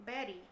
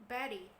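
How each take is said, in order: No difference in how they are said.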